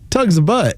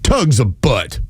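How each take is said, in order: First: It is said with a smile, sounding warm. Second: It is said with a scowl, sounding grumpy. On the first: "Now I'm going to say it with a smile" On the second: "I'll do this with a scowl"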